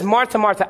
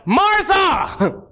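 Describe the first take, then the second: First: Said in the usual way. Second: High, drawn-out mock shout; exasperated call. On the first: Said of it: "we read this as like". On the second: Jesus interrupts Martha who kept talking, exasperated call. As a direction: cut through someone's chatter with her name. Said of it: "I imagine it like this".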